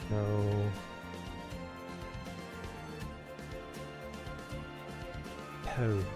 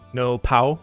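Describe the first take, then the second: First: The last syllable rhymes with 'go'. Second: The last syllable rhymes with 'cow'. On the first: "As in nouveau" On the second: "Like Hawaiian for finished pow?"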